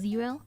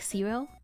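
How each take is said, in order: First: The word begins with a Z sound. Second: The word begins with an S sound. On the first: "Instead of zero" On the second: "I would say like zero. Like S"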